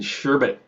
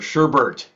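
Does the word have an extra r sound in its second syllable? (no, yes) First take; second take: no; yes. First: The second syllable has no r sound. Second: The second syllable has an added r sound.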